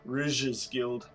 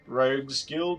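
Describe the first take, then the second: First: The name sounds like the word 'rouge'. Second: The name sounds like the word 'rogue'. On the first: This is how others say it. "I think that's how they pronounce it" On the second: This is the speaker's own way of saying it. "I say Rogues"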